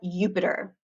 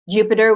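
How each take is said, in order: First: The word begins with a Y sound. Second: The word begins with a J sound.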